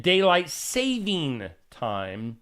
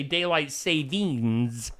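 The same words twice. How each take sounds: First: Daylight saving time, slow, saving with no s; correct saying. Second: Daylight savings, slow, with the s on savings; wrong saying. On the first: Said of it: "not to be confused with". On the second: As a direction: mimic the common slip daylight savings. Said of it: "what people like to say". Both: Shown as a demonstration.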